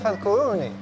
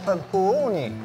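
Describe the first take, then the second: First: The r is said light, with a thin sound. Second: The r is said heavy, with a thick sound. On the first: The speaker calls it wrong. "Tidak boleh fadhkuruni. Ah, harus ditepalkan" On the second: The speaker calls it right. "tetap ada tafkhim, tepal"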